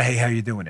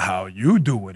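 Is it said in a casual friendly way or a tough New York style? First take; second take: casual friendly; New York. First: It is said in a casual, friendly way. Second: It is said in a tough New York way.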